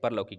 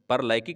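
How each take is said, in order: First: The second syllable has the vowel 'au'. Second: The second syllable has the vowel 'ai'. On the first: The speaker calls it right. "यह सही उत्तर है" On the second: The speaker calls it wrong. "परलैकिक नहीं होता है भाई"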